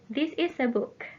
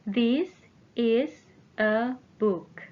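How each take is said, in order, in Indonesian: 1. Kalimat diucapkan dengan tempo lebih cepat. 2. Kalimat diucapkan dengan tempo lebih lambat.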